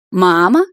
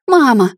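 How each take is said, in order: First: Loud, rising incredulous question; loud derisive query; mocking echo. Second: High, loud cry of horror; loud frightened call; horrified shriek. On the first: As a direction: throw the word back as a scornful question. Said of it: "захохотала родившая меня женщина". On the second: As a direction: cry out in terror. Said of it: "в ужасе завизжала я". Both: A narrator's reading.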